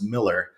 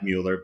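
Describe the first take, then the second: First: The first vowel sounds like 'ih'. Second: The first vowel sounds like 'yoo'. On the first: It is how the family says it. The speaker calls it right. "no, it's Miller" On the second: It is the common reading from the spelling. The speaker calls it wrong. "A lot of people pronounce it Mueller because it looks like Mueller"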